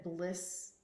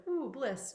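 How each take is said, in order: First: Said in the usual way. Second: A light dreamy "Ooh, bliss" set higher; mock blissful sigh. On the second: Mock-dreamy sigh to listeners about constant crying. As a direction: tease the idea of floating in bliss all day. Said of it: "because it's like".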